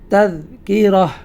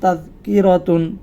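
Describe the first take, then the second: First: The word ends with a short h sound. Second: The word ends with a full tun syllable. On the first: The reading stops at this word. "যদি আমরা এখানে থামতে চাই" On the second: The reading continues into the next word. "যদি আমরা এটির পরে অন্য কোনো শব্দের সাথে এটি মিলিয়ে পড়ি অর্থাৎ কন্টিনিউ থাকি"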